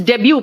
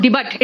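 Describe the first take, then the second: First: Debut said "DEB-yu"; silent final T. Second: Debut said "di-BUT" with hard T; final T wrongly sounded. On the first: Teacher correcting pupils, debut with a silent T. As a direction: end debut on "yu", no T. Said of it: "it is debut". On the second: Teacher showing pupils the mistake, debut read as spelt. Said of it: "it is not debut". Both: Shown as a demonstration.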